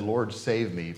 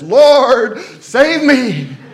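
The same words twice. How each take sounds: First: It is said calmly, without urgency. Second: It is said desperately, like someone drowning.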